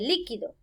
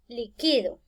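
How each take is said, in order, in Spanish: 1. El acento cae en la primera sílaba. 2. El acento cae en la sílaba del medio. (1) "esta palabra se convierte en esdrújula" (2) "no le encuentro tilde por ninguna parte"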